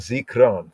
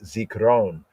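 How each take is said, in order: First: The word is said in a shortened form. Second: The word is said with every syllable fully enunciated.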